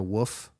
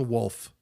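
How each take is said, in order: First: "woof" said for wolf, with no L; Kansas pronunciation. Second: Said in the usual way. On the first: Shown as a demonstration. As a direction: drop the L from wolf, making "woof". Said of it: "that's a Kansas accent as well". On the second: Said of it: "it's a wolf".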